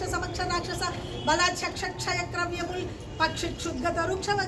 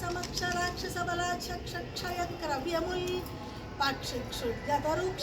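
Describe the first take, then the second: First: The verse is recited at a fast pace. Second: The verse is recited at a slow pace. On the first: "స్పీడ్గా చదవాలి" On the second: "దీన్ని నేను మెల్లిగా చదువుతా"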